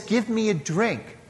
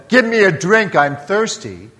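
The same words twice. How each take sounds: First: Softer, gentle asking of "Give me a drink"; gentle request. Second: Louder, commanding "Give me a drink"; demand. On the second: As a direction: bark "Give me a drink" as an order. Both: Shown as a demonstration. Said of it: "this is not a demand".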